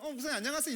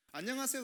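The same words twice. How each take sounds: First: Higher, louder, eager hello back; cheery greeting back. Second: Higher, bright hello; cheery greeting. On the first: Young member answers the pastor's greeting eagerly. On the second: Pastor greets a young member with a cheerful hello. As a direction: call out a cheerful hi. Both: Shown as a demonstration. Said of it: "이렇게 인사해야 되는 게 맞는".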